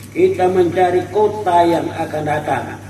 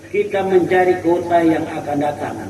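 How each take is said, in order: Both takes have the same delivery.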